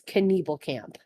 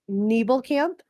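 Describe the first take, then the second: First: The name begins with a K then N. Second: The name begins with an N sound. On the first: "in which you do pronounce both letters" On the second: "and it's Nebelkamp"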